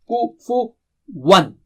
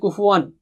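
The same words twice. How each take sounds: First: The sounds in the word are kept clearly separate. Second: The sounds in the word run together, merged. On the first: The speaker calls it right. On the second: The speaker calls it wrong.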